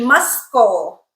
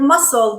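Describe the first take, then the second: First: The C is pronounced as a K sound. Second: The C is silent, not pronounced at all. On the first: The speaker calls it wrong. "so it should make the K sound" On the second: The speaker calls it right. "this C is indeed silent"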